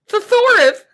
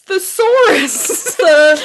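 First: The s sounds are lisped into th sounds. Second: The s sounds are pronounced clearly. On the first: The speaker calls it wrong. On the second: The speaker calls it right.

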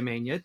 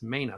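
First: The consonant is an ny sound, as with tilde. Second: The consonant is a plain n sound. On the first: The speaker calls it wrong. "we were tempted to say Mania" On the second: The speaker calls it right. "no tilde for me. It's Mania"

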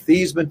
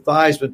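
First: The name does not rhyme with Heisman. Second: The name rhymes with Heisman. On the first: This was the original family pronunciation. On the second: This is a changed pronunciation chosen for publicity.

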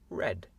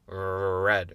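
First: The R sound is light and soft. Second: The R sound is strong and heavy. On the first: The speaker calls it right. "C'est un petit peu plus léger que mon R red. C'est red" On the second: The speaker calls it wrong. "C'est pas red"

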